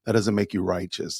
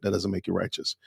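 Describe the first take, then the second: First: Said in the usual way. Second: Whispered repeat, no voice at all. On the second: Shown as a demonstration. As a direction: drop to a breathy whisper for the repeat.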